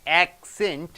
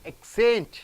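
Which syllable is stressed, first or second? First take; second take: second; second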